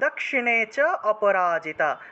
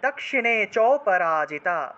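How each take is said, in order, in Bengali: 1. স্বরধ্বনি 'a' নিজের আলাদা একটি উচ্চারণ-দল হিসেবে বলা হয়। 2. স্বরধ্বনি 'a' আগের cha-এর সঙ্গে মিশে যায়।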